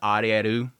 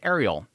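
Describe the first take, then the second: First: The name is pronounced the Japanese way. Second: The name is pronounced the English way. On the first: "technically Ariel's name is Arieru" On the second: "I always pronounce Ariel as Ariel"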